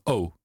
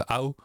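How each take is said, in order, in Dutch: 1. De klinker glijdt licht, als een tweeklank. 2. De klinker opent naar een ow-klank. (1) "nu hoor je in Nederland vaak een O ... Er zit een verloop in. We noemen het daarom een tweeklank" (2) "Hier in Amsterdam"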